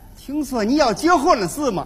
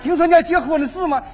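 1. 这是天津口音。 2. 这是东北口音。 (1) "到了天津就变味了" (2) "说话最朴实的还是东北的女同志"

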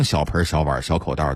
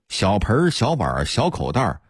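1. 这些词读的时候有儿化音。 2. 这些词读的时候没有儿化音。

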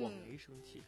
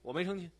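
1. 这句话是用柔和、温和的语气说的。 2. 这句话是用恼火、生气的语气说的。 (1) "多温柔。" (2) "你听听说话的口气，你自己想一想，他怎么可能是不生气呢？"

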